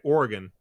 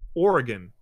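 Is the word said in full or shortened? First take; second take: shortened; full. First: The word is said shortened. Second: The word is said in full.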